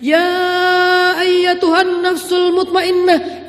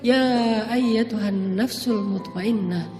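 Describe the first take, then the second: First: It is called out loudly, sounding angry. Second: It is called softly, sounding gentle.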